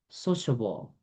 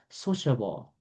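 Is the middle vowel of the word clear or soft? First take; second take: soft; soft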